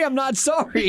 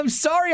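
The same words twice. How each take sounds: First: Cheeky admission, not sorry; unapologetic. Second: Fake apology. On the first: Pretend. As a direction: own up with a grin.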